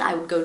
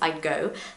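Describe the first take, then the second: First: The word would is said in full. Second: Would shrinks to a quick d sound.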